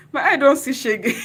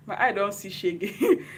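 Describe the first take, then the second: First: Much higher and louder, laughing; overjoyed laughing burst; laughing loudly. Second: Slow, laughing through it; giggling with emotion. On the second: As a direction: let the laugh break in, slowly. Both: Real, not acted. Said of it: "I'm already crying".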